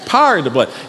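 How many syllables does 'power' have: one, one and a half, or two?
one. Power is squeezed into a single syllable. "You can almost imagine a second syllable, but it's not there"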